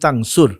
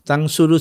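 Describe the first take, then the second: First: The word ends on a bare r sound. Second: The word ends with a final u vowel. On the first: The conditional particle has cut off the final vowel. "তাই উচ্চারণ হবে ইন তানসুর" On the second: This is the form before the conditional particle. "তানসুরু ছিল"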